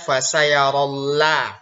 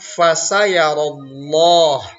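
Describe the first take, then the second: First: The L sound is light and thin. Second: The L sound is heavy and thick. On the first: The speaker calls it wrong. "Tidak boleh kita baca" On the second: The speaker calls it right. "lam pada lafaz Allah itu dibaca tebal"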